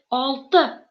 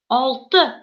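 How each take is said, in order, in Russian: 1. Последний гласный короткий и редуцированный. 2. Последний гласный короткий и редуцированный.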